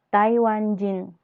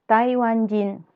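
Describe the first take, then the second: Both takes have the same delivery.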